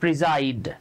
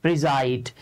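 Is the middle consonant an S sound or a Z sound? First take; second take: Z sound; Z sound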